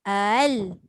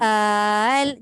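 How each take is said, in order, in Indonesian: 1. Vokal pembuka tetap pendek. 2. Vokal pembuka ditarik panjang.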